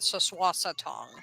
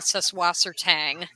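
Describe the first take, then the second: First: The last syllable has a rounder 'o' vowel sound. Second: The last syllable ends with a hard 'ang' sound. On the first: The speaker calls it right. "more of that O sound coming through" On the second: The speaker calls it wrong. "I know a lot of people say Soswassertang"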